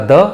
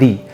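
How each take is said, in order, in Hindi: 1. स्वर एक छोटा, कमज़ोर 'uh' ध्वनि है। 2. स्वर एक लंबी, स्पष्ट 'ee' ध्वनि है। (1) "पहला द" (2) "दूसरा दी"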